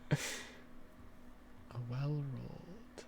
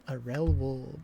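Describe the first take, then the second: First: The first word begins with a W sound. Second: The first word begins with an R sound. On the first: The speaker calls it right. "Well rolled" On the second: The speaker calls it wrong. "I kept saying rel wold"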